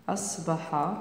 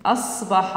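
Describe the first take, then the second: First: "أصبح" softly, as a reminder while writing; soft dictation. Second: Said in the usual way. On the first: Shown as a demonstration. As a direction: quietly repeat "أصبح" for the class. Teacher repeats word softly for writing.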